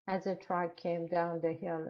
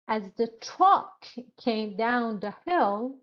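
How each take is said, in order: First: Every word is said flat without feeling. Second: Key words are stressed with lively feeling. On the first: The speaker calls it wrong. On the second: The speaker calls it right.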